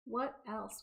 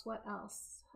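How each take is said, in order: First: Said in the usual way. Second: Softer muttered repeat; muttered to self. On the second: Real, not acted. Thinking aloud to herself, muttered softer. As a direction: mutter it under your breath.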